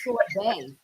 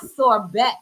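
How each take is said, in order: First: The final t is silent, ending in an ay sound. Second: The final t is clearly pronounced. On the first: The speaker calls it right. "It's sorbet" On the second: The speaker calls it wrong. "no, it's not sorbet"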